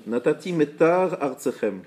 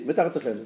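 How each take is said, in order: First: "Metar Artsechem" slow, with a gap between the words; slow, distinct reading. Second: "Metar Artsechem" quickly as one word; words run together. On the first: Teacher reading the second-line example correctly, slow and distinct. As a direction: sound the final R of "Metar", then start "Artsechem" afresh. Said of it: "Un autre exemple". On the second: Teacher showing letters lost in fast reading, run together. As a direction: slur "Metar Artsechem", swallowing the join between R and A. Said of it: "Si vous dites vite, c'est". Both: Shown as a demonstration.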